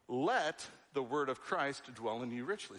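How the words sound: The stress falls on the word 'let'. We have a choice to allow it. "So that tells us, let. I have a choice in this"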